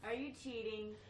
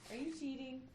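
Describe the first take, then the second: First: It is said in a normal speaking voice. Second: It is said in a put-on motherly voice.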